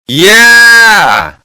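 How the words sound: It is said with loud enthusiasm.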